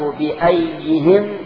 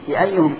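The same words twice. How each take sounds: First: The vowel after ayy is i. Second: The vowel after ayy is u. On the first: The speaker calls it wrong. "خطأ" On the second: The speaker calls it right. "الصواب بأيهم قائم ... فتكون مبنية على الضم"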